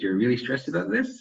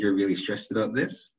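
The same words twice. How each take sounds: First: The pitch rises at the end. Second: The pitch falls at the end. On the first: It sounds like a question. The speaker calls it wrong. "if you had that intonation change at the end" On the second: It is a statement reflecting the client's feeling. The speaker calls it right. "a simple reflection back will be"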